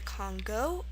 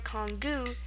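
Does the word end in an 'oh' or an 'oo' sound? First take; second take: oh; oo. First: The word ends in an 'oh' vowel. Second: The word ends in an 'oo' vowel. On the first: "pronounced either Congo" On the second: "or Kongu"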